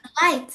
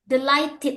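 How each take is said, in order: First: The final -ted ending is left off. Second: The final -ted ending is clearly pronounced. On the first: The speaker calls it wrong. "Jadi bukan delight" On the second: The speaker calls it right. "Ted-nya dan ded-nya dibunyikan"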